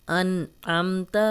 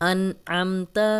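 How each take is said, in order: No difference in how they are said.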